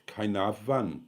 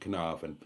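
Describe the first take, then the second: First: The name is said with its local pronunciation. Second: The name is said with an anglicized pronunciation. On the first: This is the proper local pronunciation. The speaker calls it right. "It's properly pronounced" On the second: This is how English people say it. The speaker calls it wrong. "the English pronounce it"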